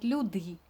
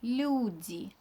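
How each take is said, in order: First: The l sound is hard, not softened. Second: The l sound is soft before the vowel. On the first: The speaker calls it wrong. "not люди" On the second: The speaker calls it right. "but люди"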